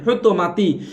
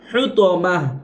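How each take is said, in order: First: The word ends with a ti sound. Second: The word ends with an h sound. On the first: The reading continues without stopping. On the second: The reader stops on this word.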